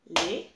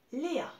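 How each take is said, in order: First: Léa split into two beats, Lé-a, louder; syllable by syllable. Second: Said in the usual way. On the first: Shown as a demonstration. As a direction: clap out Léa one syllable at a time. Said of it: "Très bien". (Léa détaché en deux syllabes)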